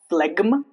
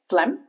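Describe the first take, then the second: First: The G is pronounced. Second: The G is silent. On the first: The speaker calls it wrong. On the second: The speaker calls it right.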